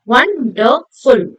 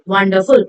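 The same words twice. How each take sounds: First: 'wonderful' slow, as won, der, ful; syllable by syllable. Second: Said in the usual way. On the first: Shown as a demonstration. Teacher recapping three syllables for students, syllable by syllable. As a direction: space out each beat of 'wonderful'. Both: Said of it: "Three syllables".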